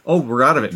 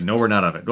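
First: "Oh" pitched up, then falling on "out of it"; mock relief. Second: Lower-pitched "No, we're not out of it"; mock letdown. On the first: Viewer thinking the tense scene is over, mock relief on "Oh". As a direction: lift "Oh" in acted relief. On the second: Viewer realising the danger continues, lowered letdown on "not out of it". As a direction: drop "No" low as a correction. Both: Alternating relief and letdown in suspense.

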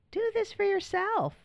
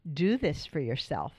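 First: "Do this for yourself." said again much higher, stressing "this"; emphatic high repeat. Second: Said in the usual way. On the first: Shown as a demonstration. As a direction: jump way up in pitch and lean on "this".

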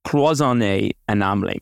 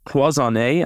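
First: Said in the usual way. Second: Cloisonné with a nasal French vowel and rising end, French accent; attempted French accent. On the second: Shown as a demonstration. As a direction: try your best French accent on Cloisonné. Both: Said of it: "trying to do my best French accent there".

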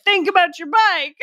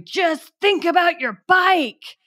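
First: Higher imitation of a director calling out; retelling the director's odd note, mock shouted. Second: Higher, slow imitation of a director calling out; mock director's shout. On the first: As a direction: toss it out like the director did. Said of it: "when he's like". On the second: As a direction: call it out like the director on set. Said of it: "he started shouting".

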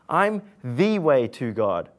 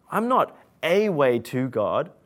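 First: "the" said as "thee", landing firmly and slowly; correcting a listener, lean hard on "the"; stress on the. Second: Correcting a listener, lean hard on "not"; stress on not. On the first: Preacher insists Jesus is the only way, stressing "the". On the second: Preacher denies Jesus is merely a way, leaning on "not". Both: Shown as a demonstration.

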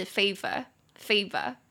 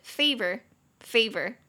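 First: Slow British "favor" with an r-less ending; British accent. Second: Slow American "favor" ending on an r; American accent. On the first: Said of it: "它在英式里面我念是". (英式发音) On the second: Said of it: "美式就是". (美式发音) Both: Shown as a demonstration.

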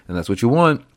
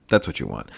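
First: Said in the usual way. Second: Much lower, mock-serious repeat; deep comic voice. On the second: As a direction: drop into a low joking voice. Repeats line in a low voice.

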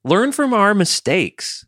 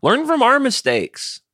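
First: Slow mock sage. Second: Mock sage advice. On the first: Repeated slower, still high. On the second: Mock wise-elder advice.

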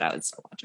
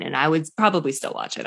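First: Much softer, voiceless aside; whispered aside. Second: Said in the usual way. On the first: Real, not acted. Admitting she'd watch a dad-bod cooking show, whispered aside. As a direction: drop to a whisper, half to herself. Repeats the line under her breath.

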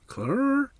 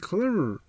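First: "Klummer?" pitched much higher with a questioning rise; puzzled question. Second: "Klummer." said flat with a falling end; flat statement. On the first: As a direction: ask "Klummer?" in disbelief, sweeping up high. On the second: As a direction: settle on "Klummer" as if it were obvious. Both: Retold or imitated. Woman repeating the odd name.

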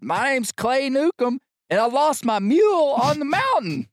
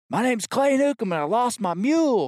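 First: Louder pitched-up shout; yelling even louder. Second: Raised shouting voice; yelling over noise. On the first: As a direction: belt it out so the whole bar hears. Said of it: "so I yell even louder". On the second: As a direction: call out over the racket. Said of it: "I'm yelling". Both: Retold or imitated.

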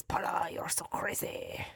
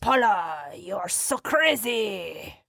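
First: Put-on hushed French-accented whisper; softly breathed French movie line; imitated French accent. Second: Put-on slow, drawn-out French accent; mock French movie accent. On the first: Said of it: "and so she always says". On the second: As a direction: stretch it out like a suave French film husband. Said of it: "for that French accent".

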